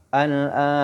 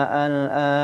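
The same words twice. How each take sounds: The two takes are said the same way.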